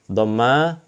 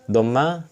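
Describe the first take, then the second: No difference in how they are said.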